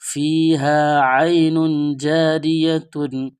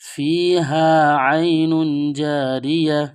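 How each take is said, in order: First: The last word ends with a full -tun ending. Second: The last word ends short in -ya, stopped.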